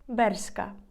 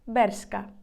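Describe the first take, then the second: Both takes have the same delivery.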